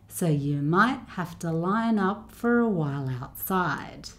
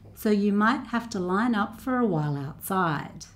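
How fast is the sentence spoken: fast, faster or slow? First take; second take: slow; faster. First: The sentence is spoken at a slow pace. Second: The sentence is spoken at the quickest pace. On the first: "I'll go a little bit faster each time" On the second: "a little bit faster each time"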